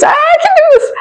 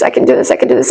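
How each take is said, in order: First: Suddenly much higher and louder, strained and on the edge; overwhelmed squeak. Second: Whispered, quick repeated self-talk; under-the-breath mantra. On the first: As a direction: squeak it out as your nerve breaks. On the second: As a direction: whisper it to yourself to hold it together. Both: Retold or imitated. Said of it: "I was like".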